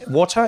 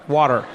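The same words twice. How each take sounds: First: The T in water is said clearly. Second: The T is softened, American style.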